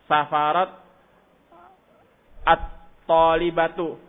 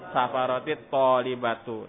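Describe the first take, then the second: First: The words meet without an added linking vowel. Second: An 'i' vowel links the two words.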